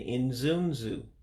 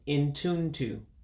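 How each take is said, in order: First: It is said in another Igbo dialect form. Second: It is said in the Central Igbo dialect form. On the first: This is an alternative regional form. "other pronunciation" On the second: This is the most widely understood form. "which I believe is Central Igbo"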